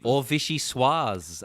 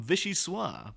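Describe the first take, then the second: First: Vichyssoise drawn out slowly and louder, French-style; alternative pronunciation. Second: Vichyssoise with a plain English ending; vichyssoise as said first. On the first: Co-host correcting the soup's name, slow and pointed. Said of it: "as it may also be pronounced". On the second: Host naming the chef's soup, said the usual way. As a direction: say vichyssoise the ordinary way. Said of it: "Or vichyssoise, as it may also be pronounced". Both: Shown as a demonstration.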